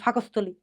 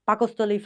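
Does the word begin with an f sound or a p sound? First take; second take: f sound; p sound. First: The word begins with an f sound. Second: The word begins with a p sound.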